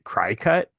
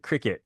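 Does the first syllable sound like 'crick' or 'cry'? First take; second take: cry; crick. First: The first syllable sounds like 'cry'. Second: The first syllable sounds like 'crick'. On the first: "I always pronounced it cry cut" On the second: "oh yeah, the cricket. I get it"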